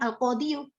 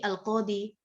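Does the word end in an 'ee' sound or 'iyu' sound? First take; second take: iyu; ee. First: The word ends with a full 'iyu' vowel ending. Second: The word ends with a plain 'ee' sound. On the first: The full case ending is possible but heavy to say. The speaker calls it wrong. "kita bisa e, mengucapkan al-qadiyu, tapi beratnya berat" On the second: The ending is lightened to make it easier to say. The speaker calls it right. "makanya diringankan menjadi al-qadi"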